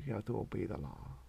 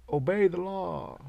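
First: Said in the usual way. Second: Slow, higher mock command; mock authority. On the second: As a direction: bark it like a stiff cop. Mocking authority.

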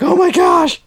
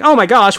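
First: Very high, loud panicked shriek; mock scream. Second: Loud, high mock alarm; old-movie bank teller. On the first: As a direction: scream your head off like a terrified bank teller. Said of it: "just screaming their head off". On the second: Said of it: "the bank teller doesn't say".

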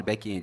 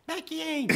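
First: Said in the usual way. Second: High-pitched imitation of a little boy; small son repeating. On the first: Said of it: "Fala, back-end". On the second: Father imitates his toddler repeating the tech word, high child voice. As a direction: mimic a child parroting, much higher. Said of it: "Ele fala".

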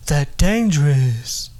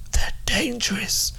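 First: Said in the usual way. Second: Whispered warning. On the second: Acted.

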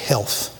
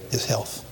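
First: Said in the usual way. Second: Breathy whispered echo, almost no voice. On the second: Shown as a demonstration. Preacher stressing Job's suffering to the congregation, whispered. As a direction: drop to a whisper on his health.

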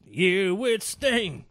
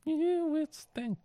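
First: Slow echo. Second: "Year with [name]" drawn out very slowly and high; high slow echo. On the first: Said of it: "echoing the partner's words". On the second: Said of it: "echoing in a high drawl". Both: Retold or imitated.

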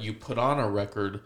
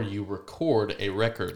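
First: "record" as RECord, stressed at the start; first-syllable stress. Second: Slow, first "record" as reCORD, second as RECord; re-CORD a REC-ord, slowly; contrasting stress. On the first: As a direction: say "record" like the noun, REC-ord. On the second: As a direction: stress "record" on its end, then on its start. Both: Shown as a demonstration. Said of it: "different pronunciations of the exact same word".

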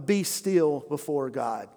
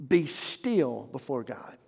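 First: Said in the usual way. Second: Softer, slower repeat, almost breathed; hushed and slow. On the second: Shown as a demonstration. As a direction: let it sink in quietly.

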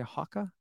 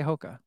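First: "Hoka" with a short open vowel, like "hocka"; British "Hoka", rhyming with "mocha" said as "mocka"; British-style Hoka. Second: Said in the usual way. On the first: Shown as a demonstration. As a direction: softly say "Hoka" as HAH-kuh. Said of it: "They say Hoka". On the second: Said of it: "They don't say Hoka".

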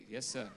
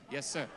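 First: Said in the usual way. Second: Shouted yes sir. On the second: Shown as a demonstration. Preacher shouts yes sir back at the congregation. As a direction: call out yes sir to the room.

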